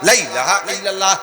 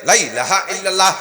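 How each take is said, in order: No difference in how they are said.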